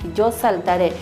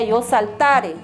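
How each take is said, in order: First: The stress falls on the last syllable. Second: The stress falls on the middle syllable. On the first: The speaker calls it right. "Es importante que pongan las tildes" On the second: The speaker calls it wrong. "si no tuviera tildes sería yo saltare"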